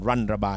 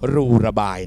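First: The first syllable is 'lun' ending in an n sound. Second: The first syllable is 'loo' with no n sound. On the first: The speaker calls it right. "มันอ่านรันระบาย" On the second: The speaker calls it wrong. "หลายคนอ่านคำนี้ว่ารูระบาย"

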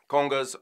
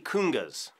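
First: The first vowel sounds like 'oh'. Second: The first vowel sounds like 'oo'. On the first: The speaker calls it right. "Congas or tumbadores" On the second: The speaker calls it wrong. "don't say kungas"

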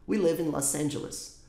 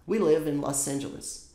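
No difference in how they are said.

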